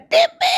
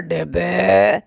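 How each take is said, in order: First: It is shouted with full force. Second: It is said in a lowered, deep voice.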